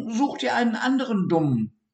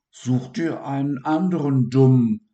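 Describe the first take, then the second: First: High, fast, dismissive little rodent; snippy high dormouse brush-off; haselmaus voice. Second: Loud, higher mimicking sneer; sing-song parroting of the dormouse; mocking imitation. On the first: Acted. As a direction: brush him off in a squeaky rush. Dormouse's blunt rebuff quoted. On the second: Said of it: "äffte er die Haselmaus nach".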